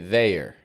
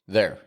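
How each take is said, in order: First: The vowel is stretched out long. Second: The vowel is short and plain. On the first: "would stretch that A out more" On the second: "other coaches might just teach it there"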